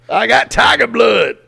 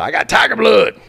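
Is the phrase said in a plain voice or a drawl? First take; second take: drawl; plain. First: It is said with a slow, drawling accent. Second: It is said in a plain voice without a drawl. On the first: The speaker calls it right. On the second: The speaker calls it wrong.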